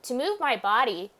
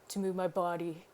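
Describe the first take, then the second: First: It is said in the speaker's normal voice. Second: It is said in a put-on character voice.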